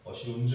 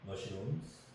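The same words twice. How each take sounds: First: The final sound is a voiced z. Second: The final sound is a voiceless s. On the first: The speaker calls it wrong. "mushrooms 이렇게 하지 말고" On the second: The speaker calls it right. "이것도 mushrooms 스로 발음해주면 돼요"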